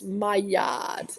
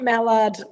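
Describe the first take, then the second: First: It does not sound like the duck word. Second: It sounds like the duck word mallard. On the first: The speaker calls it right. "It's Maillard, M A I" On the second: The speaker calls it wrong. "It's not Mallard, Michael"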